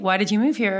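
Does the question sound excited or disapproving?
excited. It is asked in an excited, pleased tone.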